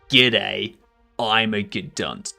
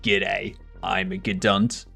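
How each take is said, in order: First: It is screamed loudly. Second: It is said calmly and quietly.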